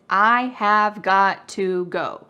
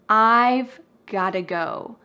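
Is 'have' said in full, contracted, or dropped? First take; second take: full; contracted. First: Every word is said fully, with 'have' complete. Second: 'I have' is contracted and 'got to' is reduced. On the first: "The full grammatical expression" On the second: "we make a contraction with I have"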